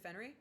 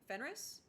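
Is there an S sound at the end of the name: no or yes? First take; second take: no; yes. First: The name ends without an S sound. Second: The name ends with an S sound. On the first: "is it Fenry?" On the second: "I don't feel like you pronounce the S"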